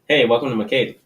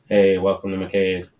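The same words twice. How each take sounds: First: It is said with a smile. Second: It is said without a smile.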